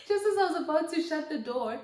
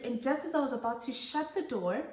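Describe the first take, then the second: First: Laughing. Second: Said in the usual way. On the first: Real, not acted. Repeats line with a laugh.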